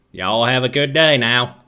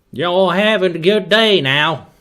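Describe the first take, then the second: First: Lightly done Texan accent at normal pitch; an easy, understated Texan twang. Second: Loud, higher Texan drawl; big put-on Texan accent; attempted Texan accent. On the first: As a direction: say it as a relaxed Texan. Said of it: "I know how to do a Texan accent". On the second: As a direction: greet folks in a hammed-up Texan accent. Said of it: "just my attempt of a Texan accent". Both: Shown as a demonstration.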